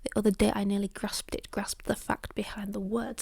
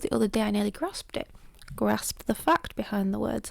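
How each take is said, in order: First: It runs on without stopping after "grasped it". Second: It stops after "grasped it" before going on.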